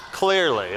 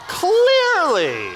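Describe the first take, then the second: First: Said in the usual way. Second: High, louder sarcastic "Clearly" stretched out; mock amazement. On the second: Real, not acted. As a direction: play "Clearly" as an exaggerated ironic exclamation, pitched high. Sarcastic joke to the audience.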